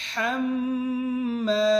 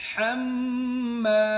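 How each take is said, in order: No difference in how they are said.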